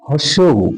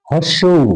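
Both takes have the same delivery.

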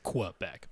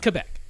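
First: The first syllable starts with a 'kw' sound. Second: The first syllable starts with a plain 'k' sound. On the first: This is the form used for the letter Q in the military alphabet. "they pronounce it Quebec" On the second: This is the usual name of the place. "but it's Quebec"

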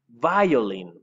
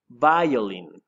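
Both takes have the same delivery.

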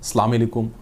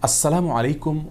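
First: The greeting is clipped, with sounds dropped. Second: The greeting is said in full, every sound kept. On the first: The speaker calls it wrong. "বিকৃত এবং অশুদ্ধ উচ্চারণে সালাম দেওয়া" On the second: The speaker calls it right. "এভাবে বিশুদ্ধ উচ্চারণ"

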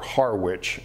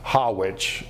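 First: The name is said in an American accent. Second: The name is said in a New England accent. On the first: "in American English" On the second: "in New England English"

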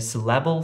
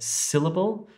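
First: The stress is on a later syllable. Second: The stress is on the first syllable. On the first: The speaker calls it wrong. "you wouldn't say" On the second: The speaker calls it right. "So the first syllable is stressed"

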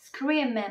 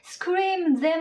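First: The th sound is dropped, merging the m's. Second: The th sound in them is pronounced.

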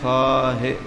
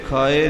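First: The word is said with an h sound. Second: The word is said without an h sound. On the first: The speaker calls it right. "ਇਹ ਖਾਹੀ ਖਾਹੇ ਹਾਹੇ ਨਾਲ ਹੈ" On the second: The speaker calls it wrong. "ਸੋ ਇਹ ਖਾਏ ਨਹੀਂ ਹੈ"

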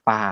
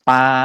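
First: The pitch goes lower. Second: The pitch stays level at a middle height. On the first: "เสียงจะต่ำลง" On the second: "ต้นแรกเนี่ย,คำว่าปลาใช่ไหมครับ"

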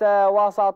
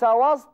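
First: The s sound is followed by an a vowel. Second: The s sound carries no following vowel. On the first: The speaker calls it wrong. "ولا تقل" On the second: The speaker calls it right. "لأن وسط ها هنا ظرف مكان"

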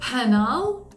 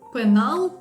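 First: The first consonant has a puff of breath. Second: The first consonant has no puff of breath. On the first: This is how an English speaker says it. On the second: This is how a native speaker says it.

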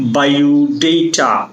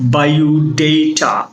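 First: The third syllable has an 'ay' vowel. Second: The third syllable has an 'ay' vowel.

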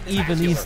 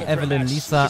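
First: The name sounds like Ivelisse. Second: The name sounds like Evelyn Lisa. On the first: The speaker calls it right. "aber es ist Ivelisse" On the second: The speaker calls it wrong. "die sagen Evelyn Lisa"

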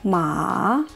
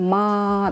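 First: The pitch rises from middle to high. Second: The pitch stays high and level throughout. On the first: "А второй тон" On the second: "«ма» – это первый тон, ровно говорим, держим своим голосом"

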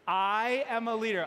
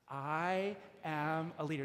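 First: It is said with more enthusiasm and energy. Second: It is said with ordinary, moderate energy.

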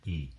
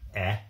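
First: The vowel is said like its letter name. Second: The vowel is said as a short sound. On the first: "Long vowels are just the names of the vowels" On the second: "Short vowels"

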